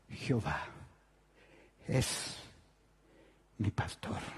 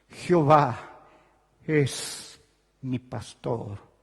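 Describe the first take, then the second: First: It is said in a low, cracking voice. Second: It is said with a full, emphatic voice.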